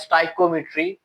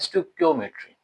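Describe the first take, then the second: First: The word begins 'sty-ko', with a long i sound. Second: The word begins 'stik-yo', with a k sound. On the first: The speaker calls it wrong. "कुछ पढ़ते हैं स्टाइकोमेट्री" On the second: The speaker calls it right. "असल में ये word क्या है?"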